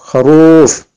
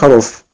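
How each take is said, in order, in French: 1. La voyelle est tirée, longue. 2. La voyelle se dit courte. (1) "je tire un peu plus que normal" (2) "Si on n'aurait pas eu le waw, on aurait dit kharouf"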